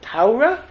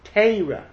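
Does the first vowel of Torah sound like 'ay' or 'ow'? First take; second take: ow; ay. First: The first vowel sounds like 'ow'. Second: The first vowel sounds like 'ay'. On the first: "which is the Yucky pronunciation" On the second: "Litvaks pronounce it A"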